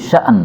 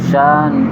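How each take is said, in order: First: The last word has a glottal stop before its vowel. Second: The last word has a long vowel, no glottal stop. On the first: This is the usual reading. "Kalau biasa biasa kita" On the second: This is an alternative permitted reading. "hamzahnya dihilangkan menjadi alif"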